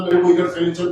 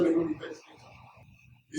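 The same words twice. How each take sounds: First: Said in the usual way. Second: Hushed and drawn out, barely voiced; slow whisper. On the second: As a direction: whisper it slowly, as a secret plea. Repeated line, whispered slowly.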